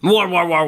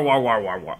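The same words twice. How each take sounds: First: Louder, higher mock chant of war; mocking repetition. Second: Said in the usual way. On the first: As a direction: parrot the slogan with sarcastic ridicule. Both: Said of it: "This is war".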